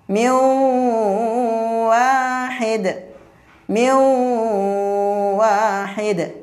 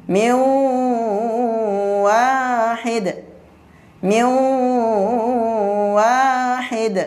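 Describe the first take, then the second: The two takes are said the same way.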